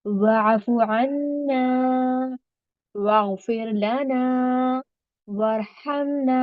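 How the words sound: Short pauses separate each of the three phrases. The speaker calls it right. "तो इसी तरह मैंने इसको पढ़ा"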